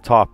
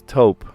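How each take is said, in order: First: The vowel sounds like the 'o' in 'top'. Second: The vowel sounds like the 'o' in 'toe'. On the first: The speaker calls it wrong. "you realize you were saying that color wrong the whole time" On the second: The speaker calls it right. "No, it's taupe. Taupe is the color"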